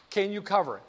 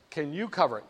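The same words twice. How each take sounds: First: CAN hit first, then falling; stress on CAN. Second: YOU picked out, then falling; stress on YOU. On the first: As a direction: open the question on a stressed "Can". Broker polls rival insurance companies. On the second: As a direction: put the question's weight on "you". Broker turns to the next insurer. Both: Acted.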